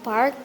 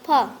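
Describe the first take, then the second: First: It is said with an American accent. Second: It is said with a British accent.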